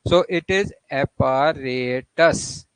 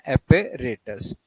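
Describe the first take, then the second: First: Apparatus with the third syllable "ra" stressed like rate; slow stress demo. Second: Apparatus said slowly, third A like rate; the Indian-English way, slow; slow careful model of apparatus; our pronunciation. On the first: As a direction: hit the RA in apparatus. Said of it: "The stress is on third syllable". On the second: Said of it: "हमारी जो pronunciation है". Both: Shown as a demonstration.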